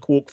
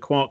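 First: The vowel rhymes with 'Mork'. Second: The vowel rhymes with 'Mark'. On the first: "not a quark for Mr. Mork" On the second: "a quark for Mr. Mark"

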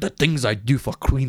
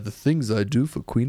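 First: It is said in an attempted Scottish accent. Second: It is said in a smooth, sultry English voice. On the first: "Where Sean cried" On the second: "That's Roger Moore"

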